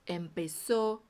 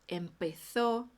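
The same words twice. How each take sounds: First: The z is said as a plain s. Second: The z is said with the tongue between teeth. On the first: This is the pronunciation of the Americas. "Que já na América é o mesmo som do S" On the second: This is the pronunciation of Spain. "Vai ser sempre esse som com a língua entre os dentes"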